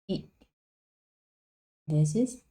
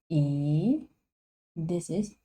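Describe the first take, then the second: Both takes have the same delivery.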